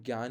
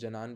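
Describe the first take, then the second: First: It is said as gyaan, with a gy sound. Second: It is said as janaan, with added vowel. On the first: The speaker calls it right. "तो उसको ज्ञान ही पढ़े हम" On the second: The speaker calls it wrong. "जनान पढ़ते हैं"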